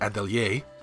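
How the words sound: It is said with a French pronunciation. "the proper way to say it would be Atelier, which is French for workshop"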